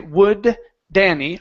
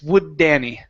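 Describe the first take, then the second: First: Two separate D sounds are pronounced between words. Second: The two D sounds merge into one D. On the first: The speaker calls it wrong. "I don't say would Danny. I don't pronounce two different D's" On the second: The speaker calls it right. "It's would Danny"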